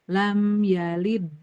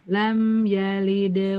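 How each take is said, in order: First: The final d is held with no release. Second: The final d is released with a bounce. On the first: The speaker calls it wrong. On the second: The speaker calls it right.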